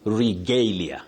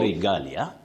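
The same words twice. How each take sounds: First: The middle A sounds like its letter name. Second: The middle A is a short vowel. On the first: The speaker calls it right. "You say regalia. ... So that letter A takes its name as the sound" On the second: The speaker calls it wrong. "You don't say regalia"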